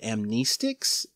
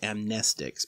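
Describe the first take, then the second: First: The second syllable has a long E vowel. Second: The second syllable has a short E vowel. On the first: The speaker calls it wrong. "I've always pronounced it amnestics" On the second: The speaker calls it right. "The word should be pronounced amnestics"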